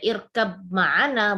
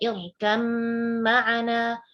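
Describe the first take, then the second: First: A separate b sound is heard before ma'ana. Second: The b is dropped, only a doubled m heard. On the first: The speaker calls it wrong. "jadi kita nggak boleh irkab ma'ana" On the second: The speaker calls it right. "suara ba-nya kita hilangkan... yang terdengar hanya huruf yang kedua saja"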